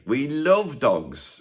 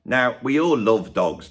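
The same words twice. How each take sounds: First: Love stretched very slowly and stressed; we LOVE dogs, drawn out. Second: All leaned on, slow; we ALL, drawn out and stressed. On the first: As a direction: hang on the word love. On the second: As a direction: lean into the word all. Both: Shown as a demonstration.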